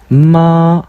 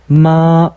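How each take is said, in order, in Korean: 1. 처음부터 끝까지 높고 평평하게 유지됩니다. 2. 처음부터 끝까지 높고 평평하게 유지됩니다.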